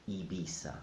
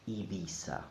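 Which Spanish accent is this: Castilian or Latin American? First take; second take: Latin American; Latin American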